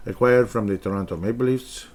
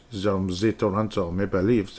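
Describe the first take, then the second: First: Said in the usual way. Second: From as zom and the as ze, in a lightly put-on French accent; half-hearted French accent, admittedly wrong; mock French accent. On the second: Reading the draft pick to listeners in a mock French accent. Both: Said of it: "I'm not even doing the accent correctly".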